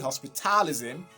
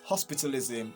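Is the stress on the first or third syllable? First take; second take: third; first. First: The stress is on the third syllable. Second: The stress is on the first syllable. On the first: The speaker calls it wrong. "you're going to be stressing ta ta" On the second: The speaker calls it right. "is still going to be at ho ho hospitalism"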